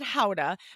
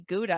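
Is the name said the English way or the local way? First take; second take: local; English. First: It is said the local Dutch way. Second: It is said the English way. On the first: This is how the locals say it. "they pronounce it Howda" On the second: This is how the visitors say it. "we would say Gouda"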